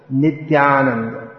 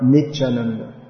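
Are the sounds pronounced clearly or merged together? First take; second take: clearly; merged. First: Every sound is pronounced clearly and separately. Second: The sounds are merged together. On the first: The speaker calls it right. "But Nityananda" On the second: The speaker calls it wrong. "it's just easier to merge everything"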